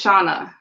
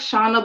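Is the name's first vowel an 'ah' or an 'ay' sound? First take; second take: ah; ay. First: The first vowel is an 'ah' sound. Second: The first vowel is a long 'ay' sound. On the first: This is the actual name. The speaker calls it right. "So think of Ghana" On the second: This is how the spelling looks. The speaker calls it wrong. "it looks like Shauna"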